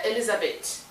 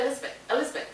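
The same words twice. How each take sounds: First: Elizabeth with every syllable sounded out; full pronunciation. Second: Elizabeth squeezed to "Elizbeh"; missing the A. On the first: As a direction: say Elizabeth in full, keeping the middle A. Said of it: "you can spell it right". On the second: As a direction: drop the middle A and soften the end of Elizabeth. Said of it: "you might even miss the A". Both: Shown as a demonstration.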